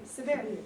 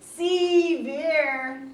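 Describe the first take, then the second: First: The first vowel is very short and reduced. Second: The first vowel is full and drawn out. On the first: The speaker calls it right. "You say severe. ... it's a very short vowel" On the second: The speaker calls it wrong. "You don't say severe"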